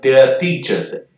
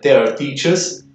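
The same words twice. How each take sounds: First: The r at the end of their is silent. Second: The r at the end of their is pronounced. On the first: "pronúncia britânica" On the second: "no americano, eu vou pronunciar esse Rzinho no final"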